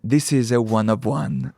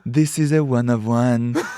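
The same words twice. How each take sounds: First: It is said in the speaker's ordinary accent. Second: It is said in a put-on French accent.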